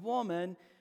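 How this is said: It is said in a warm, affectionate tone.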